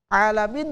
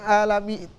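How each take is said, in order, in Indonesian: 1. Diawali bunyi ain yang tegang di tenggorokan. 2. Diawali hamzah biasa. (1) "Alamin bukan alamin" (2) "Sebagian orang membaca ain, dibaca hamzah"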